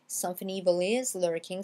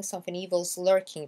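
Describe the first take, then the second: First: IS said as a separate word in "something evil is lurking"; full IS. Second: EVIL'S with a Z running into lurking; contracted IS. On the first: Teacher gives the alternative wording, IS in full. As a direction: keep IS uncontracted before lurking. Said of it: "comme si c'était is". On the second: Teacher shows what the singer says, IS contracted. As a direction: squeeze "is" down to a Z on evil. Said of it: "il dit something evil's lurking". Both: Shown as a demonstration.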